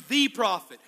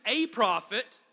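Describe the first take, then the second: First: "the" stressed, said as "thee"; single out "the" before prophet. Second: "a" stressed as a full word. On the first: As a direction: lean hard on "the", pronounced thee. Contrasts the with a. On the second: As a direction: lean hard on "a" before prophet. Contrasts a with the. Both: Shown as a demonstration.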